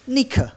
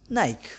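First: The word is said in a German accent. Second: The word is said in an Indian accent. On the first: "The Germans, they call it" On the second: "the Indians, they call it"

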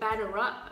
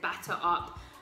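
First: It is said in an American accent. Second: It is said in a non-American accent. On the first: The speaker calls it right. "I said that in American accent" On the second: The speaker calls it wrong. "it just wouldn't sound right if I said"

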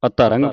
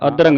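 First: The second consonant is a plain voiceless 't'. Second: The second consonant is an aspirated voiced 'dh'. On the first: The speaker calls it right. "ਅਤਰੰਗ ਪੜ੍ਹਨਾ ਹੈ" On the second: The speaker calls it wrong. "ਅਧਰੰਗ ਨਹੀਂ ਪੜ੍ਹਨਾ"

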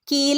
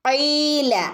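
First: It begins with a plain front k sound. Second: It begins with a deep throat q sound. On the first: The speaker calls it wrong. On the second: The speaker calls it right.

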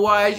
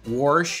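First: It is said without an r, standard style. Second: It is said with an added r, West Virginia style.

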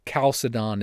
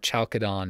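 First: The word begins with a hard K sound. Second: The word begins without a hard K sound. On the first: The speaker calls it right. "the way that I think is most appropriate to pronounce it in English" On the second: The speaker calls it wrong. "Some people call it Chalcedon or Chalcedon, and that just rubs me the wrong way"

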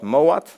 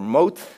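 First: The name is said in a non-English way. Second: The name is said the English way. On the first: "it's called MOAT" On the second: "or MOAT, as the English people are saying it"

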